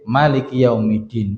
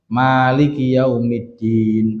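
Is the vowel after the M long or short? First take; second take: short; long. First: The vowel after the M is kept short. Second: The vowel after the M is drawn out long. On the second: "boleh dibaca panjang"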